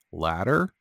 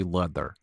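First: Said in the usual way. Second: "Ladder" with a foreign vowel, falling; put-on foreign accent. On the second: Shown as a demonstration. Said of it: "Now say".

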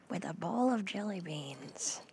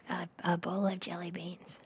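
First: Whisper. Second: Said in the usual way. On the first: Shown as a demonstration. Whispered take of phrase.

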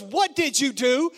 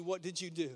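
First: Loud, slow, demanding question; accusing mother sure it's his fault; accusing mom. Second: Much softer, lower retelling of the accusation; hushed echo of mom's accusing question; soft contrast. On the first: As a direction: mom demanding what her crying son did. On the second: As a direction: say it gently, as the question God won't ask. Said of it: "he wouldn't ask you". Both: Retold or imitated.

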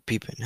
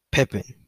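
First: Pepin said PEE-pin, long ee first; softer pepin with a long ee; alternative pronunciation of pepin. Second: Pepin said PEP-in, short e in the first syllable; higher-pitched Pepin, rhyming with "step in"; first pronunciation of Pepin. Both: Shown as a demonstration. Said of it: "however you pronounce it".

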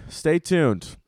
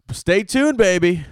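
First: Said in the usual way. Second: A playful high-pitched sign-off; sing-song stay tuned. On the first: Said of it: "repeat of the sign-off". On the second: Acted. Podcast host teasing fans about new dates, high sing-song. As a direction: stay tuned swooping way up high, then baby falling. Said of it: "signing off the tour promo".

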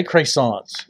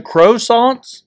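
First: "croissants" opening on a long AY, as CRAY; CRAY-sonts. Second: "croissants" drawn out as CROW-sonts. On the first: Asking co-host how to say it, "croissants" as CRAY-sonts. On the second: Offering co-host another option, "croissants" as CROW-sonts. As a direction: say "croissants" slowly with a long OH at the front. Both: Shown as a demonstration. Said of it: "How do you say croissants?".

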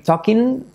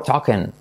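First: "talking" as "TOK-in", rising; tentative rising "tok-in" for "talking"; talking with clear I. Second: "talking" as "TOK-en", falling; settled falling "tok-en" for "talking". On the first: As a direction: say "talking" with an EE ending. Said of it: "podrías intentar decir talking". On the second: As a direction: say "talking" with an E ending. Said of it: "A mí me suena mejor". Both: Shown as a demonstration.

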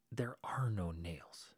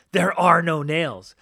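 First: Slow, whispered "There are no nails."; hushed, deadpan reply. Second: Slow, booming, higher "There are no nails."; mock loud repeat. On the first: Retold or imitated. Local man telling the visitor there are no nails, slow whisper. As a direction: say it quietly and slowly, as if it's obvious. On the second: Narrator repeating the local man's answer to listeners, loud and slow. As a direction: hammer the line out loud and slow for effect. Retelling the punchline loudly.

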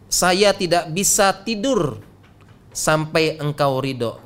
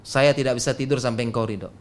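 First: Slow, measured quote; slow rendering. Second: Fast, lower and run together; quick repeat. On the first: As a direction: draw the words out slowly and deliberately. Quoted line rendered slowly, then repeated. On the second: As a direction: rattle it through in a lower voice. Same line repeated quickly and lower. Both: Retold or imitated.

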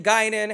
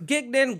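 First: Guinan said GUY-nan, the right way; Guinan, first syllable GUY, then nan; corrected name. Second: Gignan with a hard G, said GIG-nan; wrong name. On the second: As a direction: Gignan said loud and high as the wrong version. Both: Shown as a demonstration. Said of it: "it wasn't that far off".

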